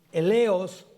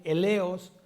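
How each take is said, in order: First: "eleos" with the stress on the first E, said out loud; "eleos" stressed on the first syllable, EH-le-os; teacher giving the Greek word "eleos", stress on the first E; Greek pronunciation. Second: "eleos" with the first E stressed, less emphatic; Greek pronunciation repeated. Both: Shown as a demonstration. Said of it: "acento en la primera E".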